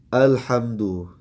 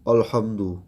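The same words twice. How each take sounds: First: The first vowel is thin, a clear a. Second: The first vowel is heavy, sounding like o. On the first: The speaker calls it right. "Seharusnya kita membacanya dengan uh, tipis a" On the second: The speaker calls it wrong. "kadang dengan tebal alhamdu, alhamdu ya dengan o seperti berat"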